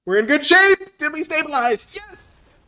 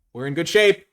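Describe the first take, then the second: First: Much higher and louder, thrilled yell; excited shout. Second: Said in the usual way. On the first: Real, not acted. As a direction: shout it out in triumph.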